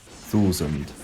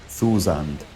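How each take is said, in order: Both takes have the same delivery.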